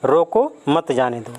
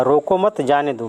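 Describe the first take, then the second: First: रोको alone, a clear break, then मत जाने दो; pause after रोको. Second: रोको मत as one group, जाने दो following; pause after मत. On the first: Teacher returns to the sentence forbidding going, pause after रोको. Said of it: "और यहाँ पर कह रहा है इस वाक्य में". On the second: Teacher shows the opposite meaning, pause after मत. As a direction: join रोको to मत, break before जाने दो. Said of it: "तो इसका अर्थ सीधा उल्टा हो जाएगा". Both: Shown as a demonstration.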